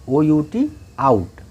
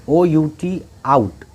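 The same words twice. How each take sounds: The two takes are said the same way.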